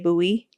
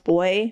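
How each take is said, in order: First: The word is said with an American pronunciation. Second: The word is said with a Canadian pronunciation. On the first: "Americans say buoy" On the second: "Canadians pronounce boy"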